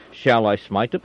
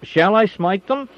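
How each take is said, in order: First: Said in the usual way. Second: Much higher and louder, slower, pressing the question; eager repeat. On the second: A narrator's reading. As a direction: ask again, itching to strike. King repeats the question more urgently.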